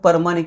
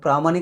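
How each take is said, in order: First: The word begins with a separated 'para' sound. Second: The word begins with a clustered 'pra' sound. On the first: This is how older colloquial speakers said it. "परमाणिक म्हणायचे त्याला" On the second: This is the standard literary form. "प्रामाणिक असेल तर"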